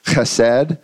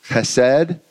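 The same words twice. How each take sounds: First: Chesed with a throaty ch, Hebrew style. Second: Chesed with a plain English h, American version; cheap American chesed. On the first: Preacher minding his rabbi, says Chesed the Hebrew way. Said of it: "remembering my rabbi over here". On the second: Preacher's cheap-out American version of chesed. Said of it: "I don't even wanna say it with the Hebrew accent". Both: Shown as a demonstration.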